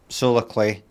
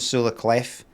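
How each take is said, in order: First: The last word ends without an f sound. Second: The last word ends with an f sound. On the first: The speaker calls it right. "No pronouncing the F" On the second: The speaker calls it wrong. "so it's no Solar Clef"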